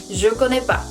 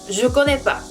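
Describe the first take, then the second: No difference in how they are said.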